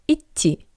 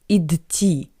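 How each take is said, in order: First: The d merges into the following t. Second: A distinct d is heard before the t. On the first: The speaker calls it right. "but идти" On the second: The speaker calls it wrong. "Not like идти"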